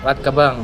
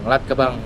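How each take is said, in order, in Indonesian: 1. Bunyi R dalam nama itu dihilangkan. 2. Bunyi R dalam nama itu dihilangkan.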